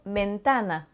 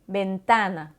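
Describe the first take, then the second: No difference in how they are said.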